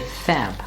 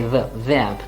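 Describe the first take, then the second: First: It begins with an f sound. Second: It begins with a v sound. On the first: The speaker calls it wrong. "we don't say fab" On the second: The speaker calls it right. "we say verb"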